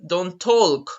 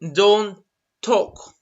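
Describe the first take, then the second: First: The L in talk is pronounced. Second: The L in talk is silent. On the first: The speaker calls it wrong. "You don't say, don't talk. No, that's not correct" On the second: The speaker calls it right. "You don't pronounce the L at all"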